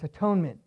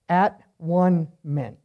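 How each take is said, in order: First: The word is said smoothly as one unit. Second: The word is broken into three separate parts.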